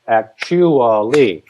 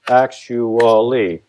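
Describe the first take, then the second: First: Actually dragged out slowly with the stress shifted; misaccented word. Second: Actually said slowly and evenly, falling at the end; slow careful stress. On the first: Songwriter showing a badly misaccented actually, slow. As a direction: stretch actually and put the stress in the wrong place. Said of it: "misaccent it". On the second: Songwriter sounding out actually slowly. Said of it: "If I mix that, misaccent it". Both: Shown as a demonstration.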